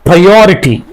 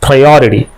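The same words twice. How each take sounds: First: The consonant near the end is a clear t. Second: The consonant near the end sounds like soft d. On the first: The speaker calls it wrong. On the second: The speaker calls it right.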